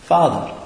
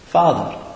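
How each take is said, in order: First: The word is said casually and familiarly. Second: The same.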